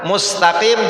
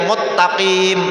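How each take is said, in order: First: The word has an s sound before the t. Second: The word has a doubled t sound instead. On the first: The speaker calls it right. "mengganti sin" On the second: The speaker calls it wrong. "pada ta"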